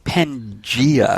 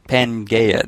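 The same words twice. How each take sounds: First: The middle syllable does not sound like 'gay'. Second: The middle syllable sounds like 'gay'. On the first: The speaker calls it right. "pronounced Pangea" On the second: The speaker calls it wrong. "Not Pangea. That would be the all gayness"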